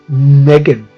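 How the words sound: Megan is said with an American pronunciation.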